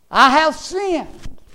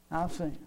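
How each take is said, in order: First: High, loud, drawn-out confession; raised preacher's cry, stretched out; cried-out confession. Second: Quietly owning up; hushed confession. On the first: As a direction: cry it out slowly, as a preacher quoting a sinner. Prodigal son's confession, acted out. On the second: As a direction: let it drop to a quiet confession. Same confession repeated, dropped right down. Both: Acted.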